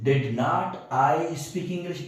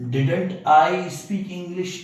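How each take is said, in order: First: Did not is said as two separate words. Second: Did not is squeezed into one word, didn't. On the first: "ये डिड नॉट इसका full full form है" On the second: "डिड नॉट की जगह डिडंट"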